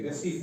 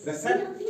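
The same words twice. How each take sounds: First: "रिसीट" as ri-seet, low and soft; silent P. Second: "रिसेप्ट" as re-sept, pitched high; high-pitched "रिसेप्ट" with short e; wrong pronunciation. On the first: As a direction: drop the P, low-pitched "रिसीट". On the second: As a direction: say "रिसेप्ट" high, as the mistaken reading. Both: Shown as a demonstration. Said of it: "पी की आवाज नहीं निकलेगी".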